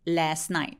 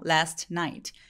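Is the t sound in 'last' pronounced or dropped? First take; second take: dropped; pronounced. First: The t at the end of last is dropped. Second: The t at the end of last is pronounced. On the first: "빨리 발음하게 되면" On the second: "last night이라고 되게 많이 읽으세요"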